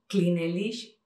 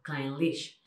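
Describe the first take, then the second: First: CLYNELISH in three syllables, "kli-ne-LISH"; Spanish letter-by-letter "kli-ne-LISH"; read as spelt. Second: CLYNELISH in two syllables, "klain-LISH"; lower, compact "klain-LISH"; short pronunciation. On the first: Showing a naive reading, CLYNELISH as "kli-ne-LISH". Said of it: "si lo leemos". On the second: Teacher shows how short it is, "klain-LISH". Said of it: "que se pronuncie de una". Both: Shown as a demonstration.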